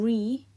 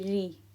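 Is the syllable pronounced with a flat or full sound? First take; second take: full; flat. First: The syllable is pronounced with a full, heavy sound. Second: The syllable is pronounced with a flat, light sound. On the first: The speaker calls it wrong. "instead of saying" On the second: The speaker calls it right. "It's a flat sound"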